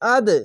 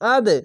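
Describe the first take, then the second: First: It ends on a short bouncing d sound. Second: It ends on a short bouncing d sound.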